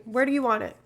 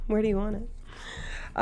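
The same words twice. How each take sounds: First: Said in the usual way. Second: Softer and slower, rising on "Where do you want it?"; softer, slower ask. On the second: Real, not acted. Asking chat where to put the sticker, softer and slower with a rise. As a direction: ease off and let "Where do you want it?" lift at the end.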